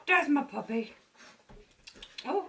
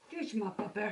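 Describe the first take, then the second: First: High pet voice. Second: Quiet doting coo to a puppy; soft cooing. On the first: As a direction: gush over the dog up high. Cooing at puppy. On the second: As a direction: coo it softly to the dog. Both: Real, not acted.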